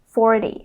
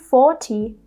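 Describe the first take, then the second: First: The middle consonant is a quick D sound. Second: The middle consonant is a clear T sound. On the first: The speaker calls it right. "a T becomes a fast D" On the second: The speaker calls it wrong. "We don't say forty"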